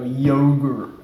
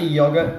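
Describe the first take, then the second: First: It is said in an American accent. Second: It is said in a non-American accent. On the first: "you've been asking me to say an American accent. There you go" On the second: "I say yogurt"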